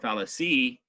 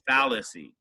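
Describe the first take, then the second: First: The stress is not on the first syllable. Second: The stress is on the first syllable. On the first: The speaker calls it wrong. "or fallacy" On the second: The speaker calls it right. "It's fallacy. accent mark on the first syllable"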